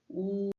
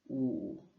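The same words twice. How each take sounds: First: The pitch stays high and level. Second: The pitch dips low then rises.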